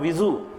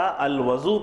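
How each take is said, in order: First: The first vowel is a front 'i' sound. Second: The first vowel is an open 'a' sound. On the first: A kind of grass that grows outside. "बाज़ लोगों ने उसको कसरे से पढ़ा" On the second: The water used for the washing. "अगर वो के ऊपर फ़तह आएगा"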